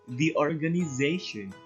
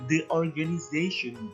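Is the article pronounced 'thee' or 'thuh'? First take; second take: thee; thuh. First: The article is said with a long 'thee' sound. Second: The article is said with a short 'thuh' sound. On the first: The speaker calls it right. "but the organization" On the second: The speaker calls it wrong. "not the organization"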